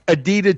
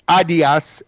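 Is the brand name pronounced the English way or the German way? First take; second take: English; German. First: The name is said with an English pronunciation. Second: The name is said with a German pronunciation.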